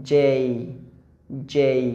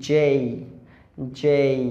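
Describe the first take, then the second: No difference in how they are said.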